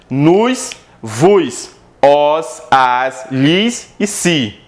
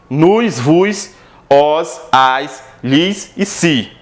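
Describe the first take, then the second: No difference in how they are said.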